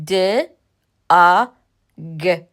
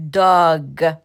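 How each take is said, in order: First: د، ا، گ as three separate sounds with pauses; isolated letter sounds د، ا، گ, the vowel hit loud; sounded out. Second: Said in the usual way. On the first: Shown as a demonstration. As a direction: sound out داگ bit by bit: "d", "o", "g".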